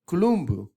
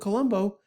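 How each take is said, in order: First: The name is said the Italian way. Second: The name is said the common English way. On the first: "in Italian they pronounce his name Columbu" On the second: "friends called him Colombo"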